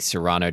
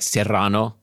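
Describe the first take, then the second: First: It is said with an English pronunciation. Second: It is said with a Spanish pronunciation. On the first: "I'm gonna use an anglicized pronunciation" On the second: "in Spanish it would be something like Serrano"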